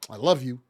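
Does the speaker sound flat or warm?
flat. It is said flatly, without feeling. The speaker does not really mean it. The speaker calls it wrong. "It's not sincere"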